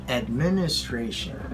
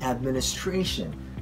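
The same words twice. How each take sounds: First: The main stress is not on the fourth syllable. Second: The main stress is on the fourth syllable. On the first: The speaker calls it wrong. "many of us pronounce this word as administration" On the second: The speaker calls it right. "The stress is on the fourth syllable"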